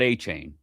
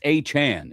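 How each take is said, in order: First: The last syllable rhymes with 'cane'. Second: The last syllable rhymes with 'can'. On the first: The speaker calls it wrong. "It's not A Chain" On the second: The speaker calls it right. "It's A Chan"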